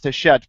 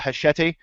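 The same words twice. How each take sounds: First: It is said without a final 'ee' sound. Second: It is said like machete, ending in an 'ee' sound. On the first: The speaker calls it right. "I'm pretty sure it's pronounced Hachette" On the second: The speaker calls it wrong. "I keep wanting to call it Hachette uh, from the movie ... Machete"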